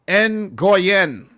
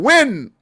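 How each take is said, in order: First: The name begins with an ng sound, two syllables. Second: The name begins with a w sound, one syllable. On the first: The speaker calls it wrong. "It's not pronounced Ngoyen" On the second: The speaker calls it right. "it's pronounced Win"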